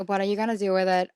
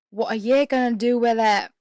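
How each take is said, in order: First: Said in the usual way. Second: Loud, badly faked Australian accent; attempted Australian accent. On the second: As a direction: try an Australian accent that slips into British.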